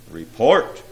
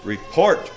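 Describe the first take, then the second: First: Louder, firm order; a touch of thunder in the command. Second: Short barked order, mildly raised; a touch of a commanding bark. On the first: Demon prince demands news from silent imps, mildly thundered. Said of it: "the prince thundered". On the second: Demon prince demands news from his imps, mildly barked. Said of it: "barked the prince". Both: A narrator's reading.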